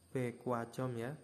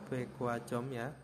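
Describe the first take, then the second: No difference in how they are said.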